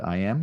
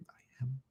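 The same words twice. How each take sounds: First: Said in the usual way. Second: Barely audible whispered affirmation. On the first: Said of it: "Allow yourself to say it out loud". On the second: Shown as a demonstration. Teacher demonstrates whispering it privately, hushed whisper. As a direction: breathe it out so nobody hears. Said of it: "You can whisper it".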